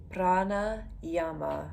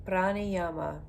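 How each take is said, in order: First: "pranayama" split into prana, then yama; broken into parts. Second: Said in the usual way. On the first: Shown as a demonstration. Yoga teacher introducing what the yogis call it, word broken in two. Teacher presenting a Sanskrit term.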